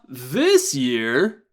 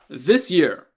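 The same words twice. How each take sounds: First: It is said with marked, contrastive intonation. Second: It is said with flat, neutral intonation. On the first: This year is set against other years. "Kotoshi with a wa" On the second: It simply names the time. "kotoshi without a wa"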